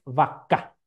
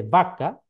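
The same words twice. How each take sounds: First: "vaca" stressed on the last syllable, vaCÁ; Guarani stress. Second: "vaca" stressed on the first syllable, VAca; Spanish stress. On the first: Lecturer showing students the Guarani stress, "vaca" as vaCÁ. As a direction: land the weight on the final "ca" of "vaca". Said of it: "como suena en guaraní". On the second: Lecturer giving the Spanish original, "vaca" stressed on VA. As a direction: lean on the opening "va" of "vaca". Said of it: "un cambio de acentuación". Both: Shown as a demonstration.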